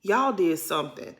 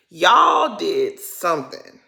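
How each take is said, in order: First: Said in the usual way. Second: "Y'all did something" slowed and pressed harder; slow, louder accusation. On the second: Shown as a demonstration. Repeating the accusation to the cast, slow and firm. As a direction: lean on "Y'all" slowly and firmly. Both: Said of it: "repeated with weight".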